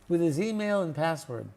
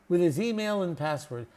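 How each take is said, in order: Both takes have the same delivery.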